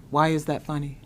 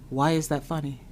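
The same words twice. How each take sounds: The two takes are said the same way.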